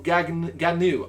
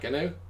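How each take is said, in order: First: The name is said with two full syllables. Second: The name is squeezed into one short syllable. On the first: The speaker calls it right. "the first time you went Gagnu, that sounds good" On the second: The speaker calls it wrong. "the second time you went Gnu"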